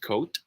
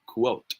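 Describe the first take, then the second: First: The word begins with a plain k sound. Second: The word begins with a kw sound. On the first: "if it is pronounced as coat" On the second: "if it is pronounced as quote"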